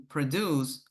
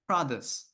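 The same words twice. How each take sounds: First: Verb "produce", stressed on the final syllable; stress on second syllable. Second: Noun "produce", stressed on the opening syllable; stress on first syllable. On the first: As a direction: put the weight on -DUCE in "produce". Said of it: "the stress falls on the second syllable". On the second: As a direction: put the weight on PRO- in "produce". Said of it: "the stress falls on the first syllable". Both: Shown as a demonstration.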